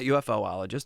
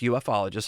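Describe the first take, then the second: First: An extra 'oh' syllable comes before '-logist'. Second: No extra syllable comes before '-logist'. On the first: The speaker calls it wrong. "not UFOologist" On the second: The speaker calls it right. "it's ufologist is how we like to be called"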